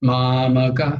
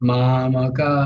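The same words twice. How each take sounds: Both takes have the same delivery.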